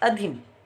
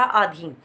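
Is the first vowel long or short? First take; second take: short; long. First: The first vowel is short. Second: The first vowel is long. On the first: The speaker calls it right. "हर्ष स्वर का प्रयोग होगा और आएगा अधीन" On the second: The speaker calls it wrong. "आधीन हो गया दीर्घ स्वर, लेकिन ये अशुद्ध रूप है"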